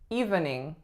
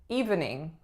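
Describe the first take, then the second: First: Every syllable is fully pronounced. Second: The same.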